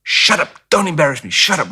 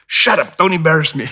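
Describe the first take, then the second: First: Sharp hushed scolding, higher pitch; a mother snapping at her kid in the store; mock mom telling off a child; imitating mom scolding. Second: Sharp higher snapping scold; mock mom hissing at her kid; South African mom scolding. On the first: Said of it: "she'd go". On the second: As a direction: contrast to the gentle American mom. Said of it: "And South African".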